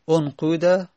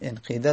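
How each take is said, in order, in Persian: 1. مصوت بعد از q یک u است. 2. مصوت بعد از q ترکیبی از i و u است. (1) "بر لغت همون قوله" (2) "با اشمام بگیم انقیده رو با اشمام"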